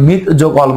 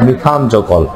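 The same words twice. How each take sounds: First: মিথ যোগ অল read as separate chunks, মিথ cut short; wrong reading. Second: মিথান যোগ অল with মিথান said in full and stressed; correct reading. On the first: Teacher to students, showing the wrong name, plain wrong reading. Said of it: "এখন থেকে মিথ যোগ অল বলবো না". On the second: Teacher to students, giving the right name, clear correct reading. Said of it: "কি বলবো?". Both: Shown as a demonstration.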